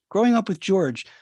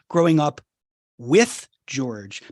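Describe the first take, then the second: First: The emphasis falls on the word George. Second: The emphasis falls on the word with. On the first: The father is seen as a person, not as a parent. "if you emphasize the growing up with George, with this George guy" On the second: The father is growing up alongside the child. "if you put the emphasis on the with"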